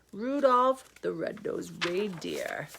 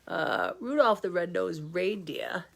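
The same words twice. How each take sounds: First: Slow hushed whisper. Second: Said in the usual way. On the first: Acted. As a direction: whisper the title slowly, storybook hush. Title read as story opening.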